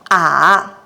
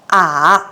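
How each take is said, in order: Both takes have the same delivery.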